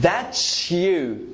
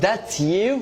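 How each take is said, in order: First: The t and y blend into ch. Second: The t and y are said separately. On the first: The speaker calls it right. "T plus U, guys, is called cha" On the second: The speaker calls it wrong. "not that you"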